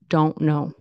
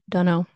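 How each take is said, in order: First: Both words are said in full. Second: The words are blended into one reduced word.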